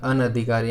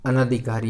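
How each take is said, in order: First: अनधिकारी with a short na; correct form. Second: अनधिकारी said as anaadhikaari; incorrect form. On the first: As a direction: say an-adhikaari for अनधिकारी. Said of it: "इस प्रकार का बनेगा". (सही रूप अनधिकारी, छोटे 'न' के साथ) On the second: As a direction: lengthen the second vowel of अनधिकारी to naa. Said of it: "ये बिल्कुल अशुद्ध है". (गलत रूप अनधिकारी, 'ना' बोलकर) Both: Shown as a demonstration.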